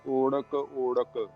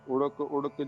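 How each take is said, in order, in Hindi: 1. पहला स्वर लंबी 'ओ' की ध्वनि है। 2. पहला स्वर छोटी 'उ' की ध्वनि है। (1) "ਹੋੜਾ ਵੀ ਲੰਬੀ ਮਾਤਰਾ" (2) "ਉੜਕ ਉੜਕ ਜਾਂ ਓੜਕ ਓੜਕ ਪੋਲਾ ਨਹੀਂ"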